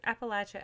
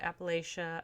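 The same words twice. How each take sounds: First: "Appalachia" said app-uh-LATCH-uh; Appalachia with a LATCH sound. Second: "Appalachia" said app-uh-LAY-shuh; Appalachia with a LAY sound. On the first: Book reviewer offering one way to say it, "Appalachia" as app-uh-LATCH-uh. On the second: Book reviewer offering the other way to say it, "Appalachia" as app-uh-LAY-shuh. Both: Shown as a demonstration. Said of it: "how you want to say it".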